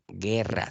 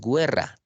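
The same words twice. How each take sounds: First: No 'w' sound is heard before the e. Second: A 'w' sound is heard before the e. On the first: The speaker calls it right. "Solamente está pronunciándose la E" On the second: The speaker calls it wrong. "tú no dices guerra"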